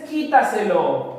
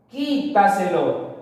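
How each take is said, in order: First: Said in the usual way. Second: Quítaselo slowed, with QUÍ held out; stress on QUÍ. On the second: Shown as a demonstration. Teacher showing the strongest syllable, Quítaselo stressed on QUÍ. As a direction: lean on QUÍ in Quítaselo, then let the rest fall. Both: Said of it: "La mayor fuerza de voz está en la sílaba qui".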